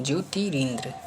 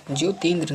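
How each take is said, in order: First: ज्योतिरिंद्र as jyoti-rindra; corrected form. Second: ज्योतिन्द्र as jyo-tindra, no r after ti; wrong form. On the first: Teacher corrects students, ज्योतिरिंद्र with its middle ri. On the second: Teacher shows the error, ज्योतिन्द्र as jyo-tindra. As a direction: drop the middle r in ज्योतिन्द्र. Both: Shown as a demonstration. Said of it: "नहीं होता है".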